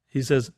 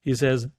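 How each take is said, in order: Both takes have the same delivery.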